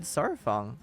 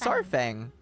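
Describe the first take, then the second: First: The last syllable sounds like 'fong'. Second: The last syllable sounds like 'fang'. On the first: The speaker calls it wrong. "I've said this wrong this entire time. I've always said Sarfong" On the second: The speaker calls it right. "And it's just Sarfang"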